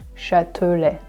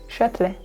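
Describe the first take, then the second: First: The word is said slowly with every syllable clear. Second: The word is said quickly with syllables slurred together.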